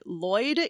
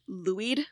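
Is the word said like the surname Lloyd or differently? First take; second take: like Lloyd; differently. First: The word sounds like the surname Lloyd. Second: The word sounds different from the surname Lloyd. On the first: This is how people in Wales say it. "Lloyd, like the last name" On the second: This is how an online pronunciation guide says it. "it pronounced it Louid"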